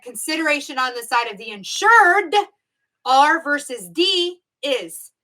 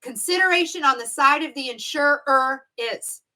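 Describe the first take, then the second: First: "insured" hit louder, the final D leaned on; stress on insured. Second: Said in the usual way. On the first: Shown as a demonstration. Teacher contrasting a trick exam wording, punching "insured". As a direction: lean hard on the D in "insured". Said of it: "If this question said". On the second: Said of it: "I could change one letter here".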